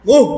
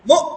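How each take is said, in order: First: The syllable ends with a breathy h-like release. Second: The syllable ends in a sharp catch with no air. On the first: The speaker calls it wrong. "এখন যদি এটাকে হা দিয়া পড়ি" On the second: The speaker calls it right. "এরকম আটকায় যাবে"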